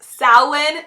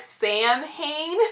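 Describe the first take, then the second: First: It is said with its traditional, non-spelled pronunciation. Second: It is said the way its letters are spelled. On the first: "it's pronounced Samhain" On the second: "it's spelt like Samhain"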